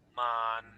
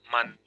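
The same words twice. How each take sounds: First: The word has a long, level pitch. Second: The word has a short, level pitch. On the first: It means correct. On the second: It means catch. "Straight but short"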